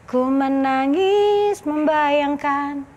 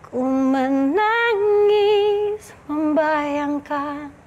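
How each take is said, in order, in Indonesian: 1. Diucapkan dengan datar, tanpa perasaan tambahan. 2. Diucapkan dengan perasaan sedih yang kuat. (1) "itu kan kayak ya udah menangis membayangkan" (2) "itu tuh aku menaruh sebuah rasa"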